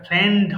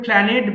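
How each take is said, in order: First: The ending is a single consonant cluster. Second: The ending is said as an extra syllable. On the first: The speaker calls it right. "এটা প্ল্যান্ড হবে" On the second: The speaker calls it wrong. "অনেকে ভুল করে প্ল্যানেট বলে"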